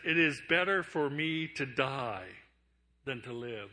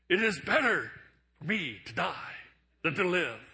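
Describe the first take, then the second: First: It is said in a plain reading voice. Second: It is said in an overdramatic Captain Kirk voice.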